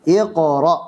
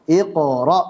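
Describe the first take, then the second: The two takes are said the same way.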